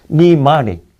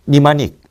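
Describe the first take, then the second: First: 니마닉 with the second syllable 마 stressed. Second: Said in the usual way. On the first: Shown as a demonstration. Teacher models 니마닉 for the class, stress on 마. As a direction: lean on 마 in 니마닉, the rest light. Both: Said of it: "이음절에 강세가 있어".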